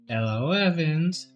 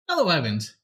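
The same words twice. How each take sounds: First: It is said in a creepy put-on voice. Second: It is said in a normal speaking voice.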